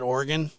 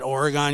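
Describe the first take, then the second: First: It is said the way locals say it. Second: It is said the way easterners say it. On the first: The speaker is from there. The speaker calls it right. "if you're from Oregon, you pronounce it Oregon" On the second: The speaker is not from there. The speaker calls it wrong. "you don't pronounce it Oregon"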